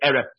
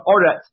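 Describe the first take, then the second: First: The first vowel is pronounced as 'eh'. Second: The first vowel is pronounced as 'oh'. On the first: It stands in the middle of a verse. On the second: It marks the end of a verse.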